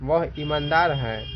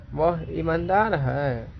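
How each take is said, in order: First: Said in the usual way. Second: Slow, climbing through ईमानदार, then falling; marked intonation wave. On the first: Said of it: "इसको एकदम simple में बोलना है". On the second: Shown as a demonstration. Teacher showing the tune, ईमानदार swept up and down slowly. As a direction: stretch ईमानदार on a rising pitch and let it drop. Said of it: "इस प्रकार बोलना है".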